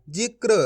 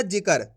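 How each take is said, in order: First: जिक्र with k and r joined, "jikr"; correct pronunciation. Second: जिक्र split as "ji-kar", with an extra vowel; wrong pronunciation. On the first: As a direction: say जिक्र with no vowel between k and r. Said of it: "कैसे पढ़ेंगे अपन इसको?". (जिक्र में क और र जोड़कर बोलें) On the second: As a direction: say जिक्र wrongly as "jikar", full vowel before r. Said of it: "ऐसे नहीं पढ़ना". (जिक्र को "जिकर" की तरह गलत बोलें) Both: Shown as a demonstration.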